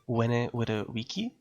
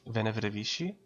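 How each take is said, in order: First: The words start with W-like sounds. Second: The words start with English-style V sounds. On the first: "when Kaiser would have said it, he would have said it" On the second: "Whenever I think of Latin, I think of"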